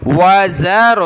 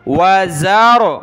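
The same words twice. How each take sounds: First: व ज़रो with a thick, full ra; slow, firm ज़रो; heavy ra. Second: व ज़रो with a thick, full ra; heavy ra. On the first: Teacher repeats the heavy ra in ज़रो for the student. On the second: Teacher shows a heavy ra in ज़रो, slow. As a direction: read ज़रो heavy and firm. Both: Shown as a demonstration. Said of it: "मोटा पढ़ना है इसको".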